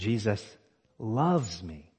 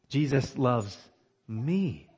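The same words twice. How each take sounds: First: The word loves is stressed. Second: The word me is stressed. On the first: It is love, not mere tolerance. "the fact that he loves me is stunning" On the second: It is amazing who it is that is loved. "It makes sense to me that Jesus would love John the"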